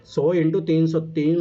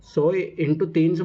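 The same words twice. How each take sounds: First: into drawn out and stressed, each word spaced slowly; slow stress on multiplication. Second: तीन hit hardest, the whole phrase very slow; slow stress on तीन. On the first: Teacher to class, counting hours slowly, stressing into. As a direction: lean on into as you spell out the sum. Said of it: "मतलब, समझ रहे हो?". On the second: Teacher repeating the sum to class, stressing तीन. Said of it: "मतलब, तीन सौ hours". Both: Shown as a demonstration.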